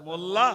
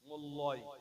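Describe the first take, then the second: First: The name ends with an 'ah' sound. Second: The name ends with an 'oy' sound. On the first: This is the name as it really is. The speaker calls it right. "কোথায় মোল্লা আর কোথায় মোল্লয়" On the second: The name was read from a careless spelling. The speaker calls it wrong. "মোল্লা বানান লিখছি M O double L Y"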